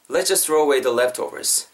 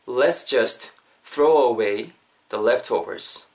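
First: Said in the usual way. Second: Very slow, broken into phrases; slow model sentence. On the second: Shown as a demonstration. Teacher modelling the key sentence for learners, slow and chunked. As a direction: pause after "just" and after "away".

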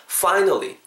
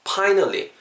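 First: "Finally" with teeth on the lip, air hissing out; correct F. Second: "Finally" said as "Pinally", a puffed P with no lip scrape; wrong P sound. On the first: Teacher shows the correct F in finally. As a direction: scrape the F of "Finally". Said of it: "발음 다르죠?". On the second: Teacher shows the wrong P version of finally. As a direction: say "Finally" with a Korean P. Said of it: "finally라고 하시면 안 된다는 거예요". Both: Shown as a demonstration.

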